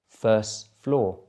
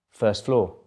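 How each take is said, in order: First: It is said a little more slowly. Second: It is said at normal speed. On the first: "the second time a little bit slower" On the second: "then at normal speed again"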